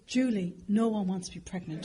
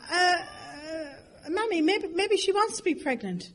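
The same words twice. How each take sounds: First: Retold disgust. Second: High, hesitant little plea; acted timid daughter. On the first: Mother to daughter on the escalator, understated disgust. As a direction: dismiss it with understated contempt. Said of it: "she looked at me disgusted". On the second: Daughter to mother about pregnant stranger, timid suggestion. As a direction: venture it meekly in a raised pitch.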